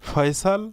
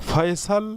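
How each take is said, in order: Both takes have the same delivery.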